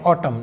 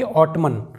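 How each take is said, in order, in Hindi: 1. अंतिम n ध्वनि silent है। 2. अंतिम n ध्वनि का उच्चारण होता है। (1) "जैसे ये लिखा हुआ है ऑटम" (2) "ना कि ऑटमन"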